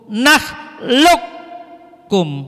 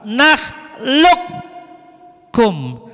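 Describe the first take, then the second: No difference in how they are said.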